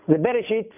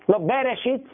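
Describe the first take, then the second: First: The first vowel is a short half vowel. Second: The first vowel is a full e vowel. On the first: The speaker calls it right. "זה חצי תנועה" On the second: The speaker calls it wrong. "אי אפשר לעשות זה תנועה, זה לא סגול"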